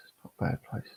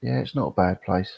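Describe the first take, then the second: First: Breathy whisper, almost under his breath; whispered repeat. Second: Said in the usual way. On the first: Real, not acted. Streamer echoing his answer to chat, whispered. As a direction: whisper "It's not a bad place." to yourself as an echo. Repeats own line to himself.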